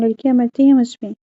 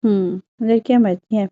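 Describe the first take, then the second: First: Proud boast. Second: Mocking imitation. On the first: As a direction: boast about लड़कियाँ मरती हैं with a hint of pride. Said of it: "Shahryar फख्र से बोला". (हल्का सा फ़ख़्र से शेखी बघारना) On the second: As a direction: lightly parrot लड़कियाँ मरती हैं in a teasing tone. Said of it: "Prisha ने उसकी नकल उतारी". (उसकी नकल उतारते हुए हल्का मज़ाक) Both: A narrator's reading.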